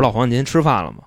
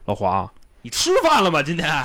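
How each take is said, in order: First: It is said in a calm, normal way. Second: It is said in an irritable, jumpy way.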